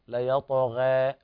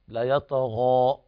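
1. الحركة الأخيرة في المنتصف بين a و e. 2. الحركة الأخيرة فتحة كاملة، صوت a مفتوح تماماً. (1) "التقليل حالة وسط بين الفتح والإمالة" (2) "هذا هو الفتح"

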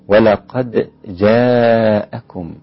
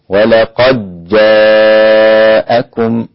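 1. تُنطق الدال مع قلقلة خفيفة. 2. تُدغم الدال في الجيم التي بعدها. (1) "أنتبه إلى قلقلة الدال خاصة عند حفص" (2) "هؤلاء الذين أدغموا الدال في الجيم"

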